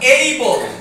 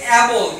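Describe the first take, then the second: First: The first vowel sounds like 'ay' in day. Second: The first vowel sounds like 'a' in cat. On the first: The speaker calls it right. "সঠিক উচ্চারণ" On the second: The speaker calls it wrong. "অনেকে বলে অ্যাবল, কিন্তু সঠিক উচ্চারণ কি হবে?"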